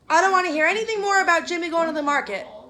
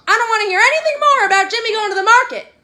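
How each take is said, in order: First: It is said in a normal, non-nasal voice. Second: It is said in a nasal, old-movie voice.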